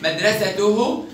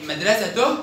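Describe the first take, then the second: First: مدرسته said as "madrasatuhu"; damma on haa. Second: مدرسته said as "madrasatoh"; sukun on haa. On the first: Teacher repeats the test, مدرسته ending in -uhu. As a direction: finish مدرسته with full -uhu. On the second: Teacher repeats the test, مدرسته ending in -oh. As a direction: end مدرسته on a breathed h. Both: Shown as a demonstration. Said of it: "دي برضو بالهاء".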